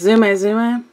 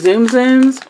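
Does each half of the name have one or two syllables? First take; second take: Two; One. First: Each half of the name has two syllables. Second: Each half of the name has one syllable. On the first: This is believed to be the actual pronunciation. "I think the actual pronunciation is Zuma Zuma" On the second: This is how most people say it. "Most people call them Zoom Zooms"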